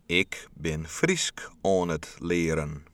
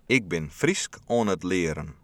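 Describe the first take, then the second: First: The sentence is spoken a little slower. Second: The sentence is spoken at a normal pace.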